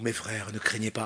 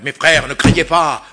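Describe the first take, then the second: First: It is said in a gentle, warm tone. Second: It is said in a stern, severe tone. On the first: It is a comforting invitation. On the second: It is an order to be obeyed.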